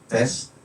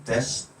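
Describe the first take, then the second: The two takes are said the same way.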